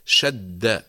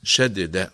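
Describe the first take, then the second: First: "شد" slow, with one held, merged dal; doubled consonant. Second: "شدد" with the doubled dal split in two; original unmerged form. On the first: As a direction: lean on the shadda in "شد", then release. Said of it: "في الشد نقول". (نطق "شد" بالشدة، دال مشددة) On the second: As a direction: sound each dal of "شدد" separately. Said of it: "أصلها". (نطق "شدد" بفك الإدغام، دالان منفصلتان) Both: Shown as a demonstration.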